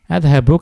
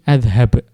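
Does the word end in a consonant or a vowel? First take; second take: vowel; consonant. First: The word ends with a final short vowel. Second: The word ends on a consonant, vowel dropped.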